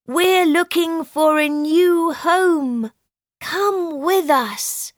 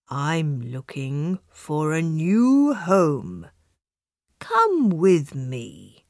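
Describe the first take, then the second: First: Higher, kindly chicken voice; a friendly invitation, lifted high and bright. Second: Lower, slow, kind donkey voice; kindly. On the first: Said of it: "said the animals kindly". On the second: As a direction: gently invite the cat to come along. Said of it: "said the donkey kindly". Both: Acted.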